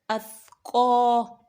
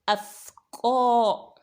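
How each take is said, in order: No difference in how they are said.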